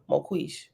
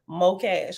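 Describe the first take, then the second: First: The last syllable sounds like ish. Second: The last syllable sounds like cash. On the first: The speaker calls it wrong. "I pronounced it wrong both ways" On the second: The speaker calls it right. "And is pronounced Mocash"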